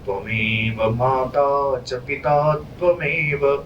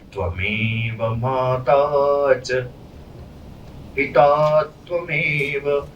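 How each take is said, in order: First: It pauses only at the end of the line. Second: It pauses partway through the line. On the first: "यहां पे रुकना पड़ता है, तो ये पादांत यति है" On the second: "अगर मैंने इसे रोक के गया, ये पाद मध्य यति होता है"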